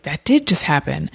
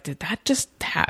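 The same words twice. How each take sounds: First: Firm realization landing on DID; stress on DID. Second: Softly doubting, broken off before the end; questioning disbelief. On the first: Speaker admitting to themselves it happened, stress on DID. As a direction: correct the doubt, leaning on DID. Corrects the doubt into a statement. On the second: Speaker doubting their own experience, questioning disbelief. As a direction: ask it quietly, cut off mid-word. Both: Retold or imitated.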